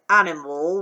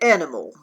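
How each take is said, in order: First: The first vowel is an open 'ah' sound. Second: The first vowel is a closer 'eh' sound. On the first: The speaker calls it wrong. "We don't say animal" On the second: The speaker calls it right. "we say animal"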